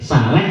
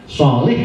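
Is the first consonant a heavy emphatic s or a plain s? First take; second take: plain s; emphatic s. First: It begins with a plain, light s sound. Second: It begins with a heavy, emphatic s sound. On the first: It means a person with diarrhea. The speaker calls it wrong. "Kalau pakai sin" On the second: It means a good person. The speaker calls it right. "shot sama sin aja kan beda"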